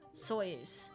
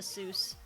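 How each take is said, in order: First: The vowel sounds like 'oy', rhyming with 'voice'. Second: The vowel sounds like 'oo', rhyming with 'goose'. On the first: This is the original family pronunciation. "but apparently it was" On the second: This is the changed, later pronunciation. "he changed it to"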